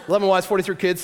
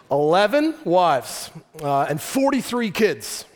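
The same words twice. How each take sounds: First: Said in the usual way. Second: Put-on "Eleven wives" and "forty-three kids" said slowly, each word leaned on; slow emphasis. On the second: Shown as a demonstration. Preacher to the congregation, slowly stressing "Eleven wives". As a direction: drag it out so the numbers sink in.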